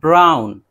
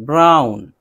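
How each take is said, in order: Both takes have the same delivery.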